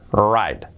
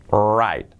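Both takes have the same delivery.

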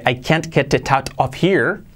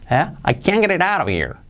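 First: Each word is separate and the h is pronounced. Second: The words are linked and the h is dropped. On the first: "En lugar de" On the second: "Fijaos cómo suena"

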